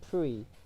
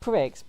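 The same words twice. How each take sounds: First: The word ends in a vowel, x silent. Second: The word is read out letter for letter. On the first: This is how people actually say it. "but they say Prix" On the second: This is how the word is written. "it's spelled Prix"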